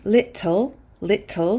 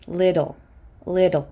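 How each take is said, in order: First: "little" with a crisp British T; British-style T. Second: "little" said like "liddle"; fast D for T. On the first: Teacher contrasts how a British person says "little", crisp British T. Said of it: "the way a British person might say it". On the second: Teacher models American "little" with a fast D. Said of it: "pronouncing this T as a fast D". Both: Shown as a demonstration.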